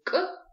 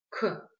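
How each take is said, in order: First: «к» резко и высоко, без выдоха; обруби «к», не выпуская воздух; к без придыхания. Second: «к» с шумным выдохом; произнеси «к» с придыханием, выпуская воздух. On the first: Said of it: "без придыхания". (короткое «к» без придыхания) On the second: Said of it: "есть придыхание". («к» мягко выдыхается, с придыханием) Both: Shown as a demonstration.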